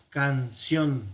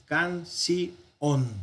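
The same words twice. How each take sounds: First: "canción" split as can-ción, diphthong kept; two syllables. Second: "canción" split as can-ci-ón, diphthong broken; vowels separated. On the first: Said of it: "normalmente sería canción". ("canción" en dos sílabas: can-ción) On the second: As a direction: say "canción" in three beats, i apart from ón. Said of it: "la separación vocálica podría ser". ("canción" en tres sílabas: can-ci-ón) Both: Shown as a demonstration.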